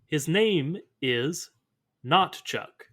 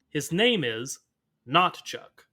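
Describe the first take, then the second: First: It is said plainly, without extra emphasis. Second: It is said with strong, forceful emphasis.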